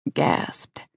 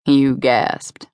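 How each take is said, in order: First: "gasped" breathed out voiceless and much softer; whispered gasped. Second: "You" leaned on, falling tune through "gasped"; stress on You. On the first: Brock teasing her about her gasp, whispered "gasped". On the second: Brock insisting she gasped, stress on "You". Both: A narrator's reading. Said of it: "the way you sounded when you gasped".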